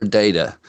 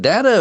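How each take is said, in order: First: Data said as "DAY-tuh"; long A in the first syllable of data; first syllable of data rhymes with "day"; DAY-tuh pronunciation. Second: Data said as "DAT-uh"; short A, as in "cat", in data; first syllable of data rhymes with "hat"; DAT-uh pronunciation. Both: Shown as a demonstration. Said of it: "Is it data or data?".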